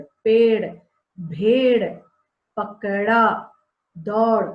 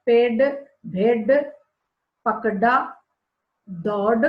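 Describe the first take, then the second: First: पेड़, भेड़, पकड़ा, दौड़ with a quick flapped ड़, tongue flicking forward; correct ड़ sound. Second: पेड़, भेड़, पकड़ा, दौड़ with a hard retroflex stop ड, no flap; wrong ड sound. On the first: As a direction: say पकड़ा with a light tongue flap, not a hard stop. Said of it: "कि ये ड़ है". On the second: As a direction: say पकड़ा as pakda with a firm ड stop. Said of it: "तो ये गलत हो जाएगा". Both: Shown as a demonstration.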